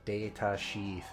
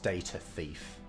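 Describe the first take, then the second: First: The second word begins with a sh sound. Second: The second word begins with a th sound. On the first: The speaker calls it wrong. "more closely represented by the sh" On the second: The speaker calls it right. "but it's data thief"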